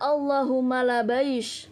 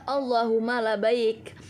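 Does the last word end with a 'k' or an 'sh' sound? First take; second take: sh; k. First: The last word ends with an 'sh' sound. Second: The last word ends with a 'k' sound. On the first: This is a Yemeni dialect form. "Sebagian orang Yaman ketika di Arafah ada yang mengatakan" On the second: This is the standard form. "Maksudnya adalah"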